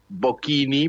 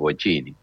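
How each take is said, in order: First: The name is said in its original pronunciation. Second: The name is said in the local pronunciation. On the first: This is how the name was properly pronounced. "se pronunciaba Bocchini" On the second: This is how everyone here says the name. "acá todos le decimos Bocchini"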